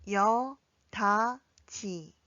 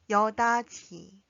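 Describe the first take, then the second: First: 여다지 very slowly, pausing between syllables; drawn-out, separated 여다지 for learners to follow. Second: 여다지 joined as one word, ending in ji; louder, run-together 여다지 for practice; connected model. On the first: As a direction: model 여, 다, 지 one at a time. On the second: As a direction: say 여다지 firmly without gaps. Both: Shown as a demonstration. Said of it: "함께 연습해 볼까요".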